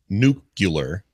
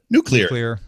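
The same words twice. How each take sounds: First: The word is not said as 'new clear'. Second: The word is said as 'new clear'. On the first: The speaker calls it wrong. "I was one of those people that said nu- nuclear" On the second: The speaker calls it right. "just say new and clear, and you've got it"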